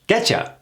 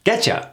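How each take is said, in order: First: The words blend into one quick 'getcha'. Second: The same.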